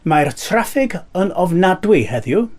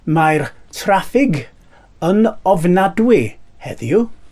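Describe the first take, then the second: First: The phrase is said at normal speed. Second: The phrase is said slowly and carefully.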